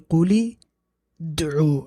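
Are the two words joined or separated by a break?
separated. The two words are separated by a break. The speaker calls it wrong. "I can't say قُلِ دعو. I can't say that"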